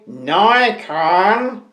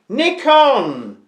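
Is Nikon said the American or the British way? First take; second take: American; British. First: It is said with an American pronunciation. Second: It is said with a British pronunciation. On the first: "I don't say Nikon" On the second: "I'm British. I say Nikon"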